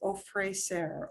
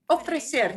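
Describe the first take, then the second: First: It is said with English-like sounds and long vowels. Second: It is said with Spanish sounds and short vowels. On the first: The speaker calls it wrong. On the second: The speaker calls it right.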